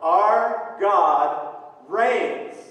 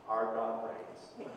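First: The phrase is shouted loudly. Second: The phrase is said quietly, without shouting. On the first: The speaker calls it right. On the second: The speaker calls it wrong. "don't say, That's not shouting"

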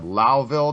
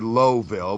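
First: It is said the local way, not as spelled. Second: It is said just as it is spelled. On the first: This is how the people who live there say it. The speaker calls it wrong. "these goddamn Yankees don't know how to read and, enunciate" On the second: This is how outsiders would say it. The speaker calls it right. "for the rest of the world, it would be Lowville"

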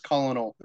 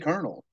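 First: It is said as spelt, like col-o-nel. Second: It is said like the word kernel. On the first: This is how it reads on the page. "that's how I read it in my head is colonel" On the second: This is how it is said out loud. "if I have to read it out loud, I say colonel"

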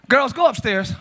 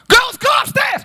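First: It is said calmly, without irritation. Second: It is said with irritation, louder.

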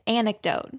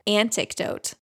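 First: No t sound comes after the n. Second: A t sound is added after the n. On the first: The speaker calls it right. "There's no tea in the beginning" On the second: The speaker calls it wrong. "You added a T to the word anecdote"

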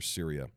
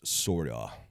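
First: The name is said with a usual English pronunciation. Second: The name is said with a Middle Eastern pronunciation.

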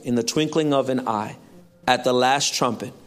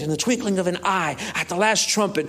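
First: It is read in a calm, plain way. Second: It is read loudly with lively enthusiasm.

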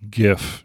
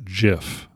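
First: It begins with a hard G sound. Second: It begins with a soft J sound. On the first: The speaker calls it right. "Graphics, as in G" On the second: The speaker calls it wrong. "not GIF"

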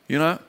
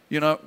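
The two takes are said the same way.

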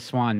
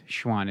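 First: The name starts with a plain s sound. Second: The name starts with an sh sound. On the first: The speaker calls it wrong. "I called him the Swan Man" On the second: The speaker calls it right. "but it's Schwann"

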